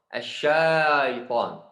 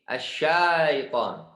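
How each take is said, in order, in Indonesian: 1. Memakai bunyi 'sh' pendek. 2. Memakai bunyi 'sh' pendek.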